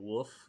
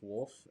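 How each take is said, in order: First: It sounds like a dog's bark, without L. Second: The L sound is clearly pronounced. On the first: The speaker calls it wrong. "It's not Wolf like a dog" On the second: The speaker calls it right. "but it's Wolf"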